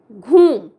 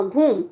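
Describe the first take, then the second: First: Word called out loudly after a pause; loud dictation. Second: Said in the usual way. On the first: Shown as a demonstration. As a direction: announce the new spelling word loudly to the class. Teacher repeats dictated word. (ज़ोर से बोलकर लिखवाया गया शब्द)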